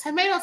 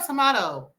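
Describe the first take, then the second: First: Tomato said as to-MAY-to with a long A, pitched high and rising. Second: Tomato said as to-MAH-to with a broad AH, settling down. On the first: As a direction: say tomato the American way, to-MAY-to, lifting at the end. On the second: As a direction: say tomato the British way, to-MAH-to, falling to a close. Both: Shown as a demonstration. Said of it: "Girl, you know, it's tomato".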